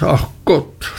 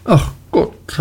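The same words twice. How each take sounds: First: „ach Gott“ leiser und abfallend nachgeklagt; leiser nachgeseufzt. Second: Hoch gerufenes „Ach Gott“ mit fallendem Ton; kindisches Jammern. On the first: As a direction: das Jammern verebben lassen. (leiseres, ermattetes „ach Gott“) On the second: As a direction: seufzend hoch klagen. (hohes, jammerndes „Ach Gott“) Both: A narrator's reading. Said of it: "rief sie in ihrer kindischen Art".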